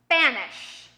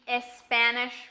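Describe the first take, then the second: First: The word starts directly with the s. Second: An extra vowel is said before the s. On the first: The speaker calls it right. "Start with that S sound" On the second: The speaker calls it wrong. "those words that I said you might have some trouble with"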